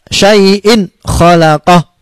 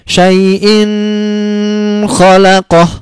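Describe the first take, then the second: First: The sound before the second word is short, quick. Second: The sound before the second word is drawn out. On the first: The speaker calls it right. "pendek dan apa? Cepat" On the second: The speaker calls it wrong. "Tidak boleh dibaca syai'in khalaqah. Tidak boleh lama-lama"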